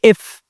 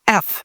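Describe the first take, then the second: First: It starts with an i vowel, like 'if'. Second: It starts with an open e vowel. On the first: The speaker calls it wrong. "ما بنقولش اف" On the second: The speaker calls it right. "اف فيها في الاول كده صوت الأ"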